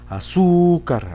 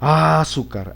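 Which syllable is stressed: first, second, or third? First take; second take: second; first. First: The stress is on the second syllable. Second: The stress is on the first syllable. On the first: The speaker calls it right. "en la sílaba su" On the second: The speaker calls it wrong. "Vamos a ver si en, en la A"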